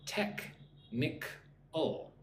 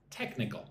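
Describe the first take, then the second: First: "Technical" broken into three slow, separate syllables. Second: Said in the usual way. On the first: Shown as a demonstration. Teacher leading learners to say it with her, syllable by syllable. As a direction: say "Technical" as tek... nik... ul, softly with pauses. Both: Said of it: "Say that with me".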